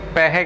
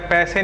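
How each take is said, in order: First: The middle consonant is an h sound. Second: The middle consonant is an s sound. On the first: "वो पैहे कहते हैं" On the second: "पैसे नहीं कहते"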